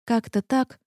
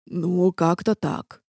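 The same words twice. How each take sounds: First: Said in the usual way. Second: Slow, dejected mumble of an answer; glum. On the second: A narrator's reading. Half-demon admits how it turned out, glum. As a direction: drag it out dismally. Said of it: "уныло ответил полудемон".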